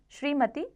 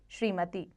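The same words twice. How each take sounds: First: श्रीमती higher, as the error; wrong form. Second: श्रीमती softer and lower, with long ee; correct form. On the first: Teacher shows the error, श्रीमती higher. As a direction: say श्रीमती as the faulty example. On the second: Teacher corrects it, श्रीमती softly. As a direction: say श्रीमती as the settled answer. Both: Shown as a demonstration. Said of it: "इसी प्रकार".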